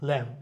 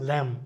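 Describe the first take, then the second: No difference in how they are said.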